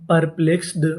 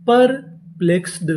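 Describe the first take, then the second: First: Said in the usual way. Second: perplexed said slowly, each syllable clear; slow model reading; slow full word. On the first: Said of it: "perplexed का मतलब". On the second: Shown as a demonstration. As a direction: present the finished word slowly. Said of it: "और यहाँ पे D है".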